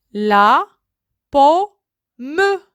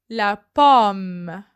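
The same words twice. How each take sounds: First: Syllabified. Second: Said in the usual way. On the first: Shown as a demonstration. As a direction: break "La pomme" apart. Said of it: "word split into syllables". ("La pomme" détaché, montée sur "pomme") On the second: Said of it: "word said whole after split".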